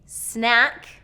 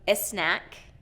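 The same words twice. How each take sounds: First: The word starts directly with the S sound. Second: An extra vowel is added before the S. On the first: The speaker calls it right. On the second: The speaker calls it wrong.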